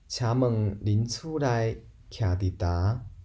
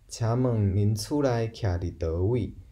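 First: The final word is merged into one syllable. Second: The final word is said as separate syllables. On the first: "其实这个呾就是倒位啊的一个" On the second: "也可以说"

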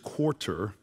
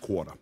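First: It is said in a general American accent. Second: It is said in a New Orleans accent. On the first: "Because it's quarter" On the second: "But in New Orleans, we say French quarter"

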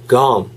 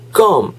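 First: It is said with an English g and vowel. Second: It is said like the Korean word 껌. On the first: The speaker calls it right. "It is gum. Sounds like gum" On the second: The speaker calls it wrong. "It's not gum, right?"

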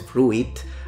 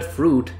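First: The word is said with an extra vowel sound after the 'r'. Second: The word is said with one vowel sound after the 'r'. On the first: The speaker calls it wrong. "No one really says fruit" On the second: The speaker calls it right. "the I is not pronounced"

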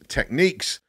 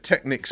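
First: The second syllable sounds like 'neeks'. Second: The second syllable sounds like 'nicks'. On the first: This is the official way of saying the name. "the official pronunciation is Techniques" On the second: This is the habitual British way of saying the name. "I'm British. I've said Technics my whole life"

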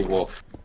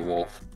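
First: The L sound is dropped or barely heard. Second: The L sound is clearly pronounced. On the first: The speaker calls it wrong. "We both don't pronounce it right" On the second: The speaker calls it right. "It's supposed to be wolf"

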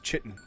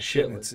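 First: The word begins with a ch sound. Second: The word begins with a sh sound. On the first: The speaker calls it right. "a ch sound" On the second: The speaker calls it wrong. "It's not a Shittin'"

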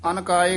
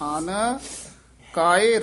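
First: The two words are run together without a break. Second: A slight break separates the two words. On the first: The speaker calls it wrong. "ਇਕੱਠਾ ਹੀ ਕਹਿ ਜਾਂਦੇ ਹਨ" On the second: The speaker calls it right. "ਆਨ ਇੱਥੇ ਯਮਕ ਲਾ ਦੇਣੀ ਹੈ"

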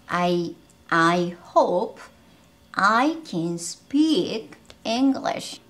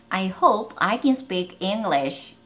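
First: The sentence is spoken slowly and carefully. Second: The sentence is spoken quickly and smoothly.

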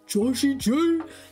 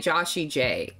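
First: The name is said loudly, with high energy. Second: The name is said flatly, with low energy. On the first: The speaker calls it right. "You have to say it as if he's coming out to rap for you like he's [name]" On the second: The speaker calls it wrong. "You can't just say [name]"

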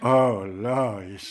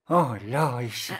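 First: It is said in a deeper voice. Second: It is said in a normal voice.

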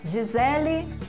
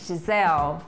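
First: A vowel sound is heard after the final l. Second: The word ends on the l with no vowel.

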